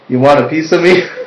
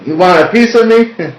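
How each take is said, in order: First: The line is read plainly, without extra emphasis. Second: The line is read with added emphasis.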